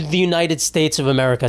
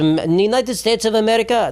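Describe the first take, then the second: First: Said in the usual way. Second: Higher-pitched imitation Iranian accent. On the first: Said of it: "Say it right". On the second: Comic as an Iranian saying America's name, Iranian accent. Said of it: "You said it with your accent".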